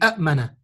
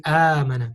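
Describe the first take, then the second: First: Two glottal stops begin the word, each with a vowel. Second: One glottal stop begins a single long vowel. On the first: The speaker calls it wrong. "You don't say" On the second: The speaker calls it right. "you say آمنة because it's easier to say"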